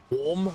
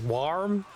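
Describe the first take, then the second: First: "Warm?" asked with a rising tune, unsure how to say it; trying the word "Warm?" with a questioning lift for chat. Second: "warm" said American style with a full r. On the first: Shown as a demonstration. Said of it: "I don't know how to pronounce it". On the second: Retold or imitated. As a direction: imitate how an American says "warm", r sounded. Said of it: "I guess you're American, it's like".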